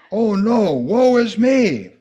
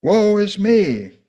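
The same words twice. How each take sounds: First: Loud, high, slow wail; anguished cry. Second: Loud, high, drawn-out lament; anguished cry. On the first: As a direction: cry out in despair. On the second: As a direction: cry it out in despair. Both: Acted. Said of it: "Isaiah cried".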